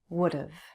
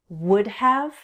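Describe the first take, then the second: First: The word have is reduced to sound like of. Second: The word have is said fully and clearly.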